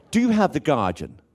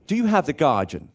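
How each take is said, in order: First: Higher, lightly put-on request; newspaper buyer's line. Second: Higher, lightly put-on buyer's voice; a touch of showing off at the newsagent; newspaper buyer's line. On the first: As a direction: ask it proudly, pitched up. Repeats the grand request. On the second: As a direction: ask it grandly, pitched up. Acts out buying newspaper, posh.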